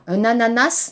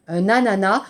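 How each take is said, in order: First: ANANAS with a sounded s at the end; final s pronounced. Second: ANANAS said "a-na-na", ending on the vowel; silent final s. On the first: Teacher showing students the mistake to avoid, final s sounded in ANANAS. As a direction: say ANANAS as "a-na-nass", hissing the last letter. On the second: Teacher correcting the mistake for students, final s silent in ANANAS. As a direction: drop the s from the end of ANANAS. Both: Shown as a demonstration.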